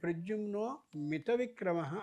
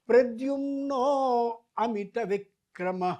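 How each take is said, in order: First: No 'a' sound comes before 'mita'. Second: A short 'a' sound comes before 'mita'. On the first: The speaker calls it wrong. "అనకూడదు" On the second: The speaker calls it right. "అని అనాలి"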